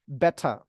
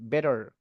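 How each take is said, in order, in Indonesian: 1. Huruf t di tengah diletupkan dan huruf r dihilangkan. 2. Huruf t di tengah terdengar seperti d yang lembut. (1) "pakai T juga boleh, tapi T-nya diletupkan. R-nya dihilangkan. ... itu kedengaran British" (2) "lafalkan pakai D ya. Nah, ini bakal kedengaran American"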